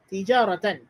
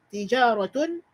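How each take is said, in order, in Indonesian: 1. Kata ini berakhiran bunyi 'an'. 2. Kata ini berakhiran bunyi 'un'. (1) "dibaca dengan nasab" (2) "Dibaca dengan marfu'"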